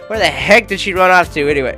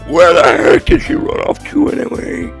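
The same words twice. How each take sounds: First: It is said in a plain, normal voice. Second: It is said in a put-on devil voice.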